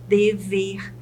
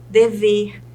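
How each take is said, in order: First: "dever" split into de, ver; syllable by syllable. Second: Said in the usual way. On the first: Shown as a demonstration. Teacher shows two syllables to students, "dever" syllable by syllable. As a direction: pause between both syllables of "dever". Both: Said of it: "Se ela tem duas sílabas".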